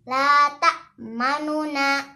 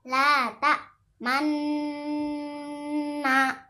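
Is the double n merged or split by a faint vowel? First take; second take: split; merged. First: A faint short u separates the two n sounds. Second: The two n sounds merge into one long n. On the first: "Nun yang pertama hanya dibaca setengah harokat saja" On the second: "mengismamkan di akhir gunnah"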